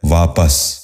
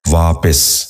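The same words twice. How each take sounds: First: واپس said as "vaa-pas", short a in the second syllable; correct pronunciation. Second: واپس said as "vaa-pis", short i in the second syllable; mispronounced. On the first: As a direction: end واپس clearly in "-pas". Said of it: "درست تلفظ ہے". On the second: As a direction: give واپس a wrong "-pis" ending. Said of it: "یہ غلط تلفظ ہے". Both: Shown as a demonstration.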